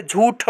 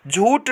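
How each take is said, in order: First: झूठ ending in a puffed retroflex th; correct aspiration. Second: झूठ ending in a plain t, "jhoot"; wrong, no aspiration. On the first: Teacher giving students the right form, aspirated. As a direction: release झूठ with a strong breath. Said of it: "होता है". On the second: Teacher showing students the mistake, aspiration dropped. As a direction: drop the puff ending झूठ. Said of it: "नहीं होता है". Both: Shown as a demonstration.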